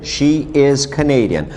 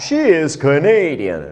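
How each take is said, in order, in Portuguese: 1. A voz cai no final. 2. A voz sobe no final.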